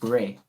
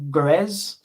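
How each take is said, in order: First: The name ends without any S sound. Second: The name ends with an audible S sound. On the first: "I don't pronounce the S" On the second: "Grey or Grez"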